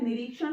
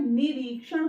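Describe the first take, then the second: First: निरीक्षण run through quickly without lengthening; hurried mispronunciation. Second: निरीक्षण with a long "ree" in the middle; correct pronunciation. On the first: Teacher mimics hasty speakers, careless short-vowel निरीक्षण. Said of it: "लोग जल्दीबाजी में बोल देते हैं". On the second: Teacher corrects the word, long stressed री in निरीक्षण. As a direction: stretch the री of निरीक्षण. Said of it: "निरीक्षण नहीं होता है". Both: Shown as a demonstration.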